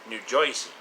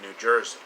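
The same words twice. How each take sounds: First: It is said in a local New Jersey accent. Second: It is said in a plain accent.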